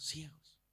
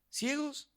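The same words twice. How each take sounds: First: Said in the usual way. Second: "Ciegos" jumps much higher and rings out; stress on Ciegos. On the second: Real, not acted. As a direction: throw "Ciegos" up high to hit it. Second take lifted high. ("Ciegos" dicho mucho más agudo y enfático)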